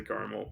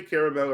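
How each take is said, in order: First: "caramel" said as CAR-mul; "caramel" squeezed into two syllables, CAR-mul. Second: "caramel" said as CARE-uh-mel; "caramel" in full, ending in a clear MEL; three-syllable caramel. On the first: Real, not acted. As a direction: drop the middle vowel of "caramel": CAR-mul. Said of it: "I say caramel". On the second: Shown as a demonstration. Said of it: "But I say caramel if the person".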